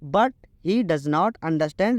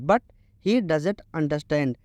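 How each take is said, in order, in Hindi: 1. 'Does not' को दो पूरे शब्दों की तरह बोला जाता है। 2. 'Does not' एक शब्द में संक्षिप्त होकर 'doesn't' बन जाता है। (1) "उसको मैं डज नॉट पढ़ रहा हूँ" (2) "जब इनको रिड्यूस कर देते हैं तो हम इनको बोलते हैं डजेंट"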